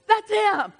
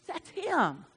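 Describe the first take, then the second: First: Loud, high, emphatic repeat; emphatic shout. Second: Said in the usual way. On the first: Real, not acted. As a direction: shout it out to the church. Naming the accuser.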